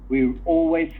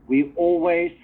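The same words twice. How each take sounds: Both takes have the same delivery.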